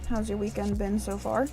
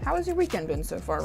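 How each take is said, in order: First: The question has an odd, unnatural pitch pattern. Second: The question has a normal, natural pitch pattern.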